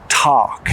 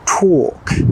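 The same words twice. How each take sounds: First: It is said with an American accent. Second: It is said with a British accent. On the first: "In American English" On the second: "In British English"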